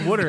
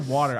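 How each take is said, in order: First: It is said in a Philadelphia accent. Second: It is said in a general American accent. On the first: "I don't say water anymore" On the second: "I say water"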